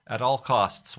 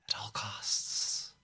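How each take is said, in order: First: Said in the usual way. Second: Breathy hushed whisper. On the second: Acted. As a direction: whisper it under your breath. Repeated as whisper.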